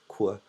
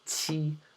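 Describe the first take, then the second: First: The letter is said like English 'cue'. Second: The letter is said like Chinese 'chee'. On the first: The speaker calls it wrong. "It's not Qu" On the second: The speaker calls it right. "This in Chinese is Qi"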